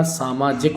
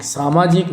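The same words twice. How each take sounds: First: Said in the usual way. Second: सामाजिक with a long ee, "samajeek"; mispronounced सामाजिक. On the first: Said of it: "सामाजिक होता है". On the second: Shown as a demonstration. Teacher showing the wrong spelling, सामाजिक as "samajeek". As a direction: lengthen the last vowel of सामाजिक. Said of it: "सामाजिक नहीं होता".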